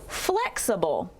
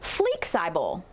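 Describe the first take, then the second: First: Short first vowel, unstressed uh second vowel. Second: Both first vowels are long: flee-eye-bull. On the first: The speaker calls it right. "Let's use the unstressed uh sound for the second syllable" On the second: The speaker calls it wrong. "Both vowels will be long when we blend the word"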